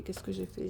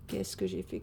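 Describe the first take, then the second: First: Said in the usual way. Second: Much lower, playful musing in a put-on deep voice; mock deep voice. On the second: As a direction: drop the voice way down as a joke. Repeats the question to herself.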